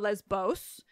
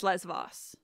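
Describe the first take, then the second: First: The middle consonant is a B sound. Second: The middle consonant is a V sound. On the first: This follows the English way of pronouncing ancient Greek. "with a B sound" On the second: This follows the modern Greek way of pronouncing it. "in modern Greek, it's"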